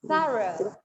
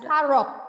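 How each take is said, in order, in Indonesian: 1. Kata ini berakhir dengan vokal. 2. Kata ini berakhir dengan bunyi k. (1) "G H pada akhir kata itu tidak ada bunyinya"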